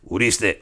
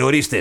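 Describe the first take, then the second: First: The first vowel is a closed 'oo' sound. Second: The first vowel is an open 'o' sound. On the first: The speaker calls it wrong. "όχι ουρίστε" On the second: The speaker calls it right.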